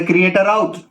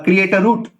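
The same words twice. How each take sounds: First: Route said "rowt" in create a route; British route. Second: Route said "root" in create a route, slowly; American route. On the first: Teacher to students giving the British take, route as "rowt". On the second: Teacher to students giving the American take, route as "root". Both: Shown as a demonstration. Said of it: "तो कोई बोल दे कि".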